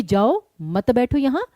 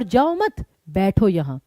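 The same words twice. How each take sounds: First: "जाओ" set apart, then "मत बैठो यहाँ" as one group; phrasing contrast on जाओ. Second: "जाओ मत" joined, pause, then "बैठो यहाँ"; phrasing contrast on मत. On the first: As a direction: pause after जाओ, so it means go, don't sit. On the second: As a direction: pause after मत, so it means don't go, sit. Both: Shown as a demonstration. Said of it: "बोलने का तरीका different है".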